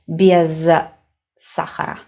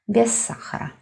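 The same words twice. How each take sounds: First: The two words are said separately with a break. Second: The words merge into one with a lengthened s. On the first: The speaker calls it wrong. "we don't separate, we don't divide these two words. We do not say без сахара" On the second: The speaker calls it right. "We make it one word, but s is just a little bit longer"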